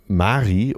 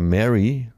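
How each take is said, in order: First: The name is said with German pronunciation. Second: The name is said with English pronunciation. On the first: The speaker calls it right. "aber er heißt, glaube ich, Roland Mari" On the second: The speaker calls it wrong. "also Englisch wird man Mary sprechen"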